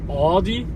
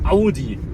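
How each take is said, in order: First: The name is said with an English pronunciation. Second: The name is said with a German pronunciation. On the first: The speaker calls it wrong. "And not Audi" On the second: The speaker calls it right. "it's Audi"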